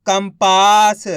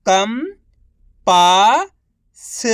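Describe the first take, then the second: First: Said in the usual way. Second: Each syllable drawn out very slowly; slow syllable-by-syllable reading. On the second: Shown as a demonstration. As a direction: sound out सुरंग slowly as सु-रं-ग, one sound at a time. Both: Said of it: "एक अक्षर का उच्चारण करके".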